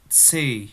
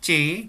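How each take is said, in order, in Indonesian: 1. Huruf ini diawali dengan bunyi ts yang mendesis. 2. Huruf ini diawali dengan bunyi ch. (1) "kayak C tapi ada desisnya" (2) "Bukan C"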